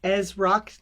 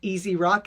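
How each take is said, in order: First: The first part is a single syllable, 'Ez'. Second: The first part has two syllables, 'Easy'. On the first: The speaker calls it right. "my name is [name]" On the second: The speaker calls it wrong. "not Easy Rock, as a lot of people pronounce it"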